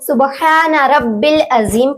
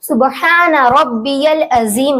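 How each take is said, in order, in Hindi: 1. 'rabb' के बाद 'ya' की आवाज़ नहीं बोली जाती है। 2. 'rabb' के बाद 'ya' की आवाज़ बोली जाती है। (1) "बहुत से लोग इसको सुबहान रब्बिल अजीम पढ़ते हैं, जबकि यह गलत है" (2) "सुबहान रब्बियल अजीम होगा"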